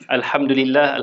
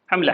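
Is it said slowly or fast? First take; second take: slowly; fast. First: It is said slowly and fully. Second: It is said fast and clipped.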